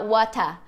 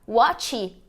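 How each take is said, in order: First: An extra a vowel follows the final t. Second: The word ends on the t sound.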